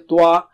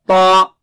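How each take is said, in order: First: The lips round, adding a w-like sound. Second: The lips stay unrounded, with no w-like sound. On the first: The speaker calls it wrong. "Don't say twa. And don't change your shape of your lips" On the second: The speaker calls it right. "The thickness is only inside"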